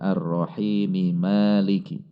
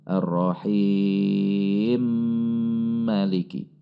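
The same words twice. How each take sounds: First: The final m keeps its vowel before Maliki. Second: The final m merges directly into Maliki. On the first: This follows the reading of Asim. "menurut qiraah Asim" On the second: This follows another reading tradition. "diidgham kabirkan ... Langsung masuk ke huruf mim"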